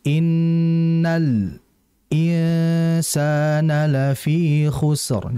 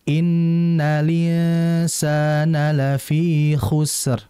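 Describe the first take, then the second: First: The phrase has a brief pause inside. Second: The phrase flows without a pause. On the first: This is another reading tradition. "ada lagi di sakta" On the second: This is one reading tradition. "Kalau dalam riwayat Warsh itu"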